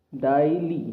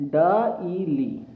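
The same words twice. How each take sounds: First: Said in the usual way. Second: "डाईली" stretched very slowly, syllable by syllable; slow sounding out. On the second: Shown as a demonstration. Teacher to students, slowly sounding out "डाईली". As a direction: draw out "डाईली" so each part is heard. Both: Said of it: "अब हमारा अक्षर बन जाता है".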